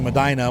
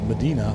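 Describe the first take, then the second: First: The i is said like eye. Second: The i is said like ee. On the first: This is how people in Ohio say it. "I live in Medina" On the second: This is how people elsewhere say it. "in the world it's Medina"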